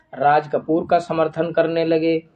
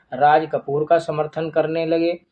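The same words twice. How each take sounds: Both takes have the same delivery.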